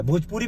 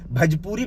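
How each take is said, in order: First: "भोजपुरी" with a clear full "ओ" in the first syllable; correct pronunciation. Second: "भजपुरी" with a short "अ" in place of "ओ", rising; mocking mispronunciation. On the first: Shown as a demonstration. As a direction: say it right: "भोजपुरी". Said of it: "भोजपुरी बोल". ("भोजपुरी" का सही उच्चारण) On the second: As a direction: mimic his wrong "भजपुरी". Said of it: "तुझे भोजपुरी बोलना नहीं आता". ("भजपुरी" का नकली गलत उच्चारण)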